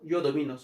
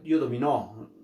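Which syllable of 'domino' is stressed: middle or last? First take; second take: middle; last. First: The stress is on the middle syllable. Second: The stress is on the last syllable. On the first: The speaker calls it right. "en primera persona domino" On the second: The speaker calls it wrong. "no, no es así"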